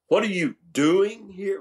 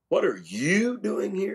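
First: The stress falls on the word doing. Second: The stress falls on the word you. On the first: The question asks what activity is going on. "Well, not much, Lord, just feeling myself" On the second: Of all people, this person is the one here. "of all the people in the world?"

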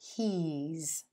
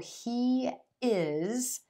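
First: The words are merged into one contracted syllable. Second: Two separate words are said in full.

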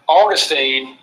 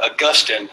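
First: It is pronounced the way the Florida city is. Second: It is pronounced the way the philosopher's name is. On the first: It names the city in Florida. The speaker calls it wrong. "Augustine is a city in Florida" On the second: It names the philosopher. The speaker calls it right. "Augustine is the philosopher"

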